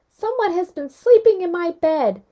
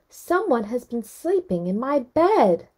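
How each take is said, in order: First: It is said in Baby Bear's wee little voice. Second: It is said in Mama Bear's middle-sized voice.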